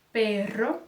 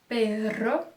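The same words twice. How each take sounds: The two takes are said the same way.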